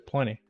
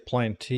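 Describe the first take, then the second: First: The T sound is dropped entirely. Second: The T sound is clearly pronounced. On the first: The speaker calls it right. "the T is silent. If you're American, you say plenty" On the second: The speaker calls it wrong. "you don't say plenty"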